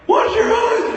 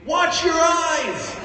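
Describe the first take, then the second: First: The voice cracks like a teenage boy's. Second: The voice stays steady throughout.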